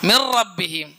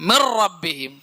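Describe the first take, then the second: No difference in how they are said.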